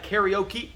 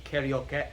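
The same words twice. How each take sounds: First: "karaoke" as high "carry-OH-kee"; Englishized pronunciation. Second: "karaoke" ending in short "keh"; Japanese pronunciation. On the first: Teacher showing how Americans Englishized it, American pronunciation. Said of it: "We Americans have kinda Englishized". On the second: Teacher contrasting with the American version, Japanese pronunciation. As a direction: say "karaoke" level, with "eh" at the end. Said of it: "the eh sound at the end". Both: Shown as a demonstration.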